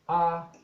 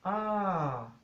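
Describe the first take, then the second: First: It is said on a level mid tone. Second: It is said on a falling tone. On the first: "medio o neutro" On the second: "tono decreciente"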